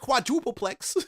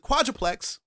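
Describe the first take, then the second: First: The word is said with four syllables. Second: The word is said with three syllables. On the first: The speaker calls it wrong. "not a quadrupleplex" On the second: The speaker calls it right. "it's a quadruplex"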